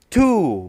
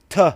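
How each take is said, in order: First: The word is said with a full vowel. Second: The word is said with a reduced vowel. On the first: "Two is a strong form" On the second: "T is a weak form"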